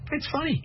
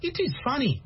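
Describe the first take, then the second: First: The words are joined into the short 'it's'. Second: Both words 'it is' are said in full. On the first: The speaker sounds like a native. The speaker calls it right. "Americans say, it's cool. It's funny" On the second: The speaker sounds like a non-native. The speaker calls it wrong. "if you say, oh, it is funny, they know you're not American"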